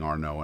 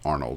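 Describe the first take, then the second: First: The name is said the French way, without l-d. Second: The name is said the English way, with l-d. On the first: The speaker calls it wrong. "I was saying it wrong" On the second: The speaker calls it right. "it's Arnold"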